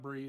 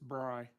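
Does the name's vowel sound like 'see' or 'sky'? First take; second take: see; sky. First: The vowel sounds like the 'ee' in see. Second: The vowel sounds like the 'eye' in sky. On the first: The speaker calls it wrong. "it's not Bree" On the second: The speaker calls it right. "it's Bry"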